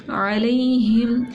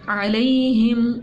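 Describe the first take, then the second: Both takes have the same delivery.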